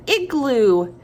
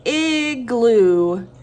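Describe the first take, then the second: First: Said in the usual way. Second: Igloo with long "iii" and long "oo", louder; drawn-out first sound. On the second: Shown as a demonstration. Teacher asking for first sound, long loud vowels in Igloo. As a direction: stretch out both vowels of Igloo. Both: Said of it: "What's the first sound?".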